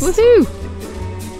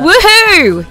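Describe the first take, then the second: First: It is said quietly and flatly. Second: It is said loudly.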